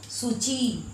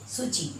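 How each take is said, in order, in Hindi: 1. अंतिम स्वर दीर्घ है, खींचा हुआ। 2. अंतिम स्वर ह्रस्व है, खींचा हुआ नहीं। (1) "ची में खिंचाव आ रहा है" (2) "च में हर्षी"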